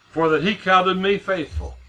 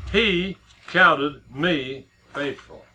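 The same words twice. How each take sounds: First: Said in the usual way. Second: "He counted me faithful" drawn out very slowly, each word weighted; stress on counted. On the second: Shown as a demonstration. Preacher driving home Paul's testimony, very slow and emphatic. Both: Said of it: "Now get that".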